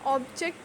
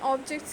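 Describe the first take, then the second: First: The stress is on the second syllable. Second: The stress is on the first syllable. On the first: It is used as a verb. "object is used as a verb, ... the stress is on the second syllable" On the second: It is used as a noun. "Noun, so here the uh, stress is on the first syllable"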